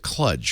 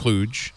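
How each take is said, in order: First: The vowel rhymes with fudge. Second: The vowel rhymes with stooge. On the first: The speaker calls it wrong. "the reader pronounced it kludge, which really annoyed the heck out of me" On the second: The speaker calls it right. "It's pronounced oh. klooge"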